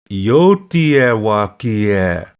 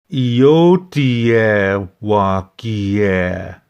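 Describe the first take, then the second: First: It is said fast, words connected. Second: It is said slowly, words apart.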